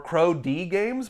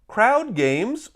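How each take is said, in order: First: The first part is said as crow, then letter D. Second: The first part is said as one word, crowd. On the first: "or Crow D games" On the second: "I think that's how you say it"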